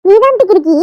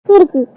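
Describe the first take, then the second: First: Louder comeback, stress on தான்; retort. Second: Loud spat-out insult; name-calling. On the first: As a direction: throw the insult right back with தான் hit hard. Insult thrown back. (தான் அழுத்தி திருப்பி அடிக்கும் பதிலடி) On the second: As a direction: fling the word at her sister. Sister hurls insult. (கோபமாக வீசிய திட்டு) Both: Acted.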